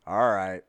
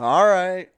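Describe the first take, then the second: First: Loud but unraised "all right" after a silence; current supervisor. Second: Much higher and louder mock let-down; disappointed boss. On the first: Retold or imitated. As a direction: imitate a boss curtly accepting the excuse. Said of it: "my current supervisor will be like". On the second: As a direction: exaggerate the boss's disappointed acceptance. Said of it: "hear the disappointment in his voice".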